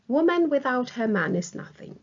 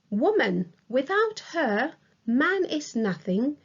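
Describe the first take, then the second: First: It is read straight through without pauses. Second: It pauses after woman and after her. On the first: "the first sentence has no other punctuation other than the full stop at the end" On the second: "a colon separates woman from without her. Without her is separated from the rest of the sentence with a comma"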